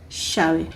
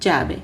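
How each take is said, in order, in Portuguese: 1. O dois L's soa como 'sh'. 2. O dois L's soa como 'y'. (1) "os argentinos e uruguaios... porém com o som do X" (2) "Outro som para os dois L's é o mesmo som do Y"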